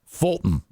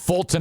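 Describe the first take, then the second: First: The middle T is softly pronounced. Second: The middle T is strongly pronounced. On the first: The speaker calls it right. "Fulton is how you say that" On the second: The speaker calls it wrong. "I think Fulton is too much"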